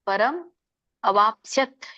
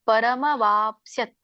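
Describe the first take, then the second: First: The words are split apart, said separately. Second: The words are joined, merged into one flow. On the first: "ಹೇಳ್ಬೇಕು ಒಂದು" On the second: "ಕೂಡಿ ಹೇಳ್ಬೇಕು ಇನ್ನೊಂದು"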